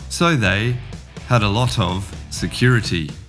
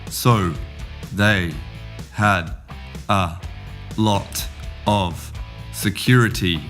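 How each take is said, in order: First: Some words run together with light reductions. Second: Each word is said slowly and clearly, separately. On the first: "To the garden" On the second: "We'll start in the greenhouse"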